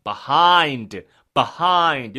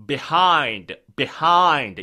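First: "behind" opening on "buh", second syllable punched; second variant. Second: "behind" opening on "bih", second syllable punched; first variant. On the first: Teacher giving the other pronunciation, "behind" with "buh". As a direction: hit "behind" as buh-HIND, loud. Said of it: "이렇게 발음돼요". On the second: Teacher giving one possible pronunciation, "behind" with "bih". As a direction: hit "behind" as bih-HIND, loud. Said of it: "이렇게 발음되고요". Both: Shown as a demonstration.

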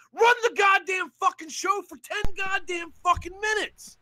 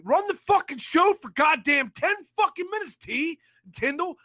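First: Higher, shouted demand; furious shout. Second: Firm, heated order; angry demand. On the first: Caller shouting at the rival to run the show, furious. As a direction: yell the demand at full force. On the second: Caller demanding the rival run the show, heated. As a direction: lay down the demand hard. Demand said, then repeated shouted. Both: Real, not acted.

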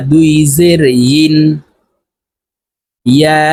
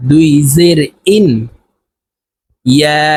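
The two takes are said the same way.

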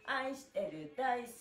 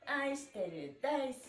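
The two takes are said the same way.

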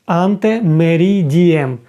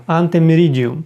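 First: "Ante meridiem" said slowly, syllable by syllable; slow demo. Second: Said in the usual way. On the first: Shown as a demonstration. Teacher slowly models "Ante meridiem" for the class. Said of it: "До полудня". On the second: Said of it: "teacher repeats the term".

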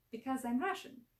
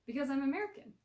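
First: Put-on higher-pitched Russian accent. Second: Said in the usual way. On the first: A narrator's reading. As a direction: answer in a thick Russian accent. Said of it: "coated with a thick Russian accent". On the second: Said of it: "came the obvious answer".

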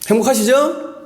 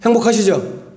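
First: "행복하시죠?" pitched high with a rising end; 대답을 재촉하는 되묻기. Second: Said in the usual way. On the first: Real, not acted. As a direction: press for an answer, lifting "행복하시죠?" high at the end. 반응이 없어 다시 묻는 말. ("행복하시죠?" 끝을 높이 올려 대답을 재촉하듯)

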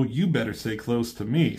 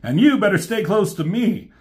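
First: R C's comeback. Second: Higher, louder cocky retort; cocky Hot Rod. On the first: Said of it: "She says". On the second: Hot Rod flirting back at R C, higher cocky retort. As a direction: toss it back, teasing and sure of yourself. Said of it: "And Hot Rod tells her". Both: Retold or imitated.

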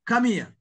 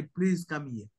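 First: A blunt, demanding order, higher and louder; commanding. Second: A gentle, courteous ask, a bit softer; polite request. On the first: Tanzanian teacher imitating a rude Kenyan-style request, commanding. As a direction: bark it like a command with no please. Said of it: "a commanding". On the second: Tanzanian teacher showing the polite way to ask, gently courteous. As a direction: ask nicely, the respectful Tanzanian way. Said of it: "in our tradition". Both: Retold or imitated.

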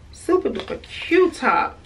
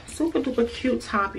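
First: Super enthusiastic gush; excited repeat. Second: Said in the usual way. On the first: Shown as a demonstration. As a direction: sell it with a bigger second pass.

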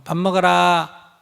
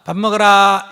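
First: Slow, calm call to eat; just let them know, slowly and evenly; patient mother announcing dinner; calm announcement. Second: Put-on calling the kids to dinner, loud; loud mother calling kids to eat. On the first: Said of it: "이렇게 알리고". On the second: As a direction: shout it across the house. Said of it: "이러면 안 된다는 거예요". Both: Shown as a demonstration.

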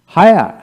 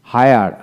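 First: "হায়ার" with the final r dropped, louder and higher; non-rhotic British "হায়ার", ending in an open aa; British pronunciation. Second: "হায়ার" with the final r sounded; American pronunciation. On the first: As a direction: punch out "হায়ার" without its last r. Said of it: "ব্রিটিশে". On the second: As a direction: say "হায়ার" ending on an audible r. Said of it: "আর উচ্চারণ সেখানে হবে". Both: Shown as a demonstration.

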